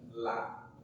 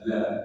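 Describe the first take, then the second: First: The syllable is said light and thin. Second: The syllable is said heavy and thickened. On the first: The speaker calls it right. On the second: The speaker calls it wrong. "Jangan ditebalkan"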